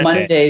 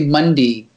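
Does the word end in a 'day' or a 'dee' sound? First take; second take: day; dee. First: The final syllable sounds like 'day'. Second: The final syllable sounds like 'dee'. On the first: "instead of saying Monday" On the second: "they say Monday"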